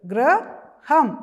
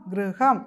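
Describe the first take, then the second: First: High, louder model of ഗൃഹം; teacher models ഗൃഹം for the children; loud model word. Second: Said in the usual way. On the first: Shown as a demonstration. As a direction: stretch ഗൃഹം out for the class.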